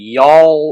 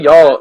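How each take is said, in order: First: It is exaggerated with a very long L. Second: It is said naturally with a short L.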